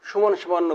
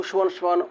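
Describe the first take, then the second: No difference in how they are said.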